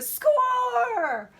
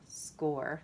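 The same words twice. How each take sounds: First: It is said with excited emotion. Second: It is said flatly without emotion. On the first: "They're going to go score" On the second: "They're not going to just go score"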